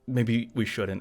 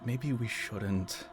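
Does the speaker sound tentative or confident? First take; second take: confident; tentative. First: It is said boldly and firmly. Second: It is said hesitantly and timidly.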